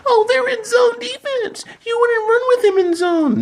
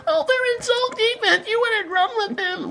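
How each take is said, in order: First: Very high, squeaky mock voice with a laugh; mocking commenter. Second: Very high, squeaky whining mock voice; mocking commenter. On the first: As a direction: parody the dumb commenter in a shrill falsetto. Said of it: "we have idiots in the comments". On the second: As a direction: whine it like a clueless commenter in falsetto. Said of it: "that shit gets me so irritated".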